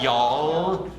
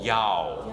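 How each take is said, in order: First: The final L is pronounced clearly. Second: The final L is swallowed back in the throat. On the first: The speaker calls it wrong. "It's not y'all" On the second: The speaker calls it right. "anything that ends with an L, is kind of swallowed"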